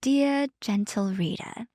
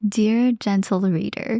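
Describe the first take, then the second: First: Soft, slow British accent. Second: Put-on slow, measured address in own accent; Bridgerton reference. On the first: Shown as a demonstration. Co-host performing on request for partner, British accent. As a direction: say it in a careful, drawn-out British accent. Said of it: "like, a British accent". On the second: Co-host echoing dear reader as a joke, Bridgerton style. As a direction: draw it out like a period narrator, unaccented. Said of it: "I made a Bridgerton reference".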